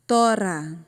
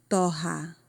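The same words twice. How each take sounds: First: "Tora" loud, with a tongue-tap R; single tapped R. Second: "torra" with an H-like R, TO-ha; double guttural R. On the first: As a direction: flick the tongue once on the R of "Tora". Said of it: "Se dobra a língua, é só um R". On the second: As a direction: keep the tongue down on the RR of "torra". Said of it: "Acrescentando outro R aqui". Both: Shown as a demonstration.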